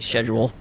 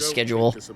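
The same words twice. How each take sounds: First: The word starts with a 'sh' sound. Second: The word starts with a 'sk' sound.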